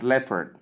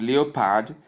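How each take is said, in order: First: "leopard" as LEP-erd with silent o; correct leopard. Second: "leopard" as written, lee-o-pard; spelling pronunciation. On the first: Teacher showing how it is pronounced, leopard as LEP-erd. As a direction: shorten "leopard" to two syllables. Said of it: "but pronounced as leopard". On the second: Teacher showing how it is spelled, leopard sounded lee-o-pard. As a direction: sound out every vowel of "leopard". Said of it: "It is spelled". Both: Shown as a demonstration.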